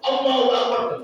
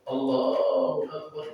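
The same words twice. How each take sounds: First: It is said suddenly and loudly, startling. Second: It is said slowly and softly, like an old imam.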